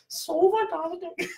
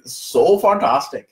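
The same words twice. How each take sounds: First: Sally's attempt at "So fantastic" in an Indian accent, much higher, softer and slow; imitating Sally's try. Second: Slow, drawn-out "So fantastic" in a put-on Indian accent. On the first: Host imitating Sally copying his Indian accent. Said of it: "Can you do that?" She's like". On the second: Host demoing his Indian accent to Sally. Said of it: "I did this to Sally. I'm like".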